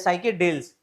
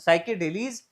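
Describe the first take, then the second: First: The word ends with a short 'els' sound. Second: The word ends with a long 'eels' sound. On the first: "साइकेडेल्स एल्स पढ़ो" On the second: "एलीज भी इसको पढ़ते हैं"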